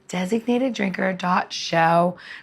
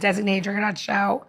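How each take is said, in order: First: The phrase is spoken much more slowly. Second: The phrase is spoken at a normal, quicker pace.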